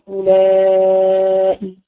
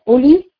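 First: The word is drawn out, ending in a glottal stop. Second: The word is short, with no glottal stop. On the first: "بالمد عند الحجازيين نقول أولائي" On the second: "قصدي وبالقصر أولي"

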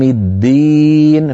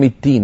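First: The d sound is fully voiced. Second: The d sound is voiceless, almost a t. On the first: The speaker calls it right. "الدال مجهورة شديدة" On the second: The speaker calls it wrong. "تحولت إلى شبه التاء"

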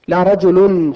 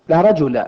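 First: The noun ends with a u vowel ending. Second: The noun ends with a short a vowel. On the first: Not even one man is there. "لكن لو قلت لا رجل بالرفع" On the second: No man of any kind is there at all. "لأن الاسم الواقع بعدها صار محركا بالفتح"

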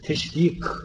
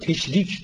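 First: The final k is a deep, back k sound. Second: The final k is a front, light k sound. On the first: It refers to the rising of the sun. The speaker calls it right. "O kaftır" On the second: It means making something shared. The speaker calls it wrong. "Bazıları bunu teşrik diyor. Teşrik ortak yapma manasında"

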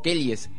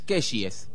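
First: It is said in a Catamarca accent. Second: It is said in a Buenos Aires accent. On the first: "si uno es catamarqueño y no pronuncia como un porteño" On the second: "Kellys vendría a ser"

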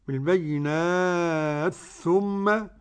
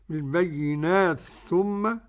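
First: The long vowel is held for four counts. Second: The long vowel is held for two counts. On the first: "أربع حركات" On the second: "حركتين"

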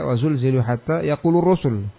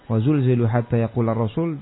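First: The verb is read with the rafa ending. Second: The verb is read with the nasab ending.

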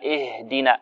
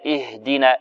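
Both takes have the same delivery.

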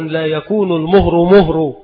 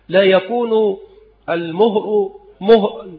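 First: It runs on without a pause. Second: There is a pause after the first two words. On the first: The whole line is one statement about the dowry. The speaker calls it wrong. "عند وصل هذا بهذا يقع هذا الخلط العظيم" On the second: 'It won't happen' ends one sentence and a new one begins. The speaker calls it right. "والأصل في القضية أنها تنطق هكذا"

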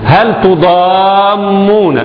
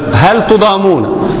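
First: The m sound is doubled and held longer. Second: The m sound is short, not doubled.

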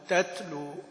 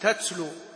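First: The t is released with a slight puff. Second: The t is released with a strong hissing puff. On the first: The speaker calls it right. "بس همس فشيء بسيط، هوى بسيط بس" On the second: The speaker calls it wrong. "كأنه في محل بنشر ... هوى يطير اللي قدام"

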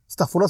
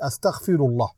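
First: It is pronounced in a colloquial dialect form. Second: It is pronounced in standard classical Arabic form. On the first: The speaker calls it wrong. "selon leur langue, Astaghfirullah, comme ils disent. Astaghfirullah, ça n'existe pas" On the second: The speaker calls it right. "C'est Astaghfirullah"

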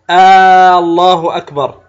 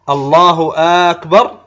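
First: The opening vowel of Allah is lengthened. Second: The opening vowel of akbar is lengthened. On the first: "بعضهم يمد همزة لفظ الجلالة" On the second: "هذا هكذا يمدها"

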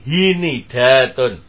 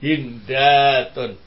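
First: A short i vowel separates n and d. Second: No vowel separates n and d. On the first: "huruf pertama di kasrah, maka yang kedua di kasrah juga" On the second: "Bacaannya ketiga tetap sukun"

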